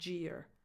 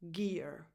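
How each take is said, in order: First: The word begins with a j sound. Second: The word begins with a hard g sound. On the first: The speaker calls it wrong. "not j. It's not jeer" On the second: The speaker calls it right. "with a hard g sound"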